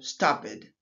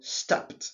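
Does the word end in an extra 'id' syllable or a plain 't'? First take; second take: id; plain t. First: The ending is an extra id syllable. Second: The ending is a plain t sound, one syllable. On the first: The speaker calls it wrong. "et non stopped" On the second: The speaker calls it right. "Stop devient stopped"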